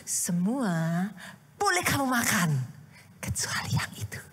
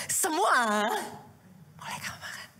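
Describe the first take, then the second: First: 1 tempting instruction. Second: Starts aloud, then drops to a whisper; hushed tease to a child. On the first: God's command voiced as parent. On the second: Pastor voicing a parent testing a little child, whispering. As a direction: whisper the tempting permission to a child. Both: Retold or imitated.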